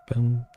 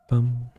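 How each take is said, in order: No difference in how they are said.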